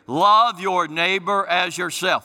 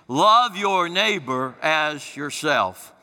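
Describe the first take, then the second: First: It is said plainly, without special conviction. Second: It is said with strong, heartfelt conviction.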